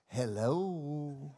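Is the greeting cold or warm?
warm. The greeting sounds warm and affectionate. The caller is someone loved. "their wife calls them on the phone"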